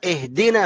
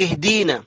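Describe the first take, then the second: First: اهدنا with a short i after d; clipped jussive. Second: اهدينا with a long ee after d; wrongly lengthened vowel. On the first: Shown as a demonstration. Teacher corrects the slip, short i in اهدنا. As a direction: keep the middle vowel of اهدنا short. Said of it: "اهدنا مجزوم". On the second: Retold or imitated. Teacher mimics a slip, long ee in اهدينا. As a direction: stretch the middle of اهدينا. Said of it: "لا، اهدنا مجزوم".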